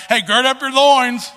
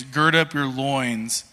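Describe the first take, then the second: First: Loud, high country holler; hammed-up country accent, pitched high and loud. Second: Said in the usual way. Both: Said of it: "I don't know why I'm saying it with a country accent".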